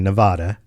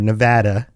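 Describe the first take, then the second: First: It is pronounced the way outsiders commonly say it. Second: It is pronounced the way local residents say it.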